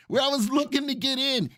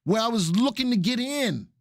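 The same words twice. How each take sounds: First: Laughing through the line. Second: Said in the usual way. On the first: Real, not acted. Host to chat, repeating himself with a laugh. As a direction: chuckle while repeating it.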